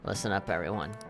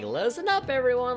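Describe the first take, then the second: First: It is said in a flat, monotone voice. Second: It is said in a lively, animated voice. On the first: It imitates a gloomy, emotionless character. The speaker calls it right. "this is like emo monotone" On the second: It imitates a clumsy, cheerful character. The speaker calls it wrong. "like that freaking teacher from Fate that always falls over"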